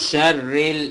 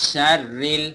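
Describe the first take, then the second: Both takes have the same delivery.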